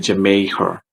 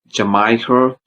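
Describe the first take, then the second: First: The middle syllable sounds like 'may'. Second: The middle syllable sounds like 'my'. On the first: The speaker calls it right. "please say Jamaica" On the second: The speaker calls it wrong. "don't say Jamaica"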